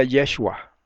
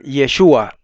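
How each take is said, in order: First: Yeshua stressed on the first syllable, YE; mother's pronunciation. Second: Yeshua stressed on SHU; everyone's pronunciation. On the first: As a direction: say Yeshua with the accent on the E. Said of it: "Su mamá le decía Yeshua". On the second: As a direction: say Yeshua with the accent on the U. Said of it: "todo el mundo le decía a él". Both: Shown as a demonstration.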